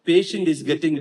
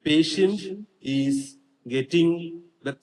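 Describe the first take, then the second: First: The words run together without pauses. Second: There is a pause between each word.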